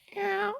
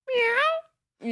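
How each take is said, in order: First: The meow sounds calm and ordinary. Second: The meow sounds excited and lively.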